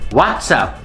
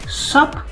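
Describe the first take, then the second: First: The full two-word greeting is said. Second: The greeting is clipped to one syllable. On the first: "what's up is excellent" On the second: "You might hear some people say"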